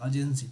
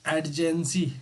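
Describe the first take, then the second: First: The first syllable has no clear d sound. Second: The first syllable has a clear d sound. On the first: The speaker calls it right. "अर्जेंसी होता है" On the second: The speaker calls it wrong. "अर्जेंसी को एडजेंसी बोलते हैं ... ये गलत है भाई"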